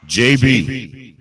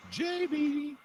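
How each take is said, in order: First: Loud call at normal pitch; projected hail to a missing caller. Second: Soft, very high falsetto call; high, quiet calling to someone missing; coaxing call. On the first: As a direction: call the name firmly to raise them. Calling again for silent caller. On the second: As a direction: coo the name way up high. Coaxing a silent caller to answer. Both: Real, not acted.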